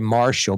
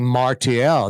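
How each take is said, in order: First: The name is said with an English pronunciation. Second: The name is said with a French pronunciation. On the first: This is how the speaker usually says the name. "I say Marshall" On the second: This is how the other person says the name. "you're you're saying Martial"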